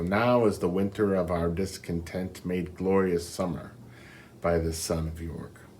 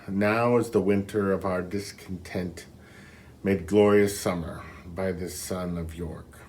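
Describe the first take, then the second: First: It runs on without a pause after discontent. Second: There is a pause after discontent.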